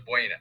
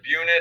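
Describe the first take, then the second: First: Buena said as BWAY-nuh; two-syllable Buena, BWAY-nuh; local pronunciation of Buena. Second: Buena said as BYOO-nuh; two-syllable Buena, BYOO-nuh; common pronunciation of Buena. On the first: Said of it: "Down there, they pronounce it". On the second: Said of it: "most people pronounce it". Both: Shown as a demonstration.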